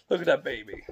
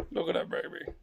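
First: Said in the usual way. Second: Whisper. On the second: Real, not acted. Dad leaning over his baby, whispering tenderly. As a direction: breathe it without voice.

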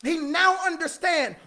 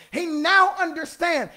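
Both takes have the same delivery.

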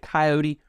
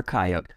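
First: Coyote pronounced ky-OH-tee; three-syllable coyote. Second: Coyote pronounced KY-oat; two-syllable coyote. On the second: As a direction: end Coyote on the "t", no "ee". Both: Shown as a demonstration. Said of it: "Do you pronounce it".

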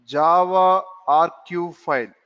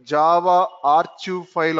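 First: "R Q" said as ar-kive, hard k; archive with K. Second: "R Q" said as ar-chive, ch as in church; archive with CH. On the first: Teacher expands jar for students, "R Q" as ar-kive with a k. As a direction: pronounce the ch in "R Q" as a k, ar-kive. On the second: Teacher shows others' variant, "R Q" as ar-chive with ch as in chair. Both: Shown as a demonstration. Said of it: "Some people will pronounce".

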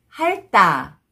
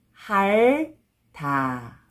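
First: 핥다 run together as 할따, tense tt; read together. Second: 핥다 slowly split as 할, pause, 다; syllable by syllable. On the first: Teacher shows how it reads together, linked pronunciation. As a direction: join 핥다 into one word with a hard 따. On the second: Teacher breaking a word down for learners, syllable by syllable. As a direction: hold the L in 핥다, then a separate 다. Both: Shown as a demonstration. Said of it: "When you read it together".

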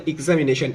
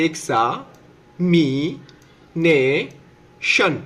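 First: Said in the usual way. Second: "এক্সামিনেশন" very slowly as এক্সা, মি, নে, শন, with pauses; syllable by syllable. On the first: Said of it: "তার মানে এক্সামিনেশন". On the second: Shown as a demonstration. Teacher showing learners where examination breaks, syllable by syllable. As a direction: draw out every part of "এক্সামিনেশন". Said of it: "আমরা হচ্ছে vowel পর্যন্ত ভাঙবো".

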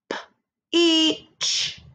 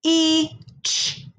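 First: Higher stretched P-E-ch again; sounding out peach. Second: Higher sound-by-sound blend of P-E-Ch; sounding out peach. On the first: Teacher repeats the peach sounds, stretched. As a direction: draw out P-E-ch a second time, pitched up. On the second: Teacher sounds out peach for first graders. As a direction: pull P-E-Ch apart, pitched up. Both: Shown as a demonstration. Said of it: "Let's sound this out".

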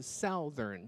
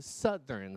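First: SOUTHERN as "SOW-thern", slow; wrong OW vowel. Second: SOUTHERN slowly as "SUTH-ern"; short UH in "southern"; correct short vowel. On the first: Teacher warning against the slip, "SOW-thern". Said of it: "不是southern". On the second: Teacher giving the right form, "SUTH-ern". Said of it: "是southern". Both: Shown as a demonstration.

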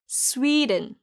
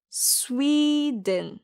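First: 스웨덴 as English "SWEE-dn" at natural speed; stressed first vowel. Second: Slow 스웨덴 as English "SWEEE-dn"; drawn-out teaching model of 스웨덴, weak ending; stressed first vowel. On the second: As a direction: stretch a high SWEE in 스웨덴. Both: Shown as a demonstration. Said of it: "강세가 첫 번째 모음".

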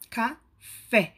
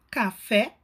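First: "café" split as "ca... fé", the "fé" stronger; ênfase silabada na última. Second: "Café" with a stronger final "fé"; ênfase na última sílaba. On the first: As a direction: pause inside "café", then punch "fé". ("café" separado, "ca... fé", com "fé" forte) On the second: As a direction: stress the "fé" of "Café". ("Café" com a sílaba "fé" mais forte) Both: Shown as a demonstration. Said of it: "Observamos a última como sílaba mais forte".

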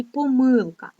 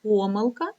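First: Помилка stressed on МИЛ; stress on second syllable. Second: Помилка stressed on ПО; stress on first syllable. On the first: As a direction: lean on the middle syllable of помилка. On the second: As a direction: lean on the opening syllable of помилка. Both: Shown as a demonstration. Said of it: "двома способами".

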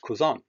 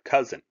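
First: Cousin said the German way, koo-ZAHN; German pronunciation. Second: Cousin said the English way, KUZ-in; wrong English pronunciation. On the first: Teacher showing students the right German word, cousin as koo-ZAHN. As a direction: stress the second syllable of cousin, koo-ZAHN. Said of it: "is pronounced cousin". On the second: Teacher warning students off English-sounding cousin, wrong KUZ-in. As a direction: stress the first syllable of cousin, KUZ-in. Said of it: "not cousin or cousine". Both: Shown as a demonstration.

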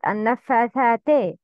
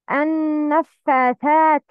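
First: Quicker النفاثات ending in "tay"; incomplete kasra. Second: النفاثات with a held "n" and final "tee"; complete kasra. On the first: Teacher showing the mistake, النفاثات ending in "teh". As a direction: end النفاثات on an open "eh". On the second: Teacher modelling for learners, النفاثات ending in "tee". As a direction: end النفاثات on a full "ee". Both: Shown as a demonstration. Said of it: "Not النفاثات".

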